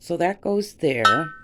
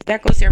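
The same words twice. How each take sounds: First: Said in the usual way. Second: "That goes there" louder and higher, firmly; loud firm correction. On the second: Real, not acted. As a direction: set it straight with a firm call. Sorting items, repeats phrase louder.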